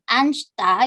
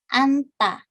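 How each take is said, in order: First: An extra consonant is sounded between n and t. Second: The n runs straight into the t sound. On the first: The speaker calls it wrong. "Jadi bukan "anshta" gitu ya, jadi jiutnya nggak usah dibaca" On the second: The speaker calls it right. "hanya nieunnya saja yang dibaca jadi "anta""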